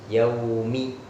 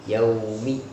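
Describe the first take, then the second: Both takes have the same delivery.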